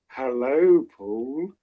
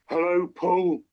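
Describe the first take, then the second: First: It sounds smitten and affectionate. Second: It sounds quite angry.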